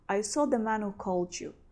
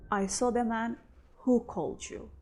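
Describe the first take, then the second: First: The h sound in 'who' is dropped. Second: The h sound in 'who' is pronounced. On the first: "Here we also don't pronounce this who" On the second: "when we want to stress this man, we will pronounce this who"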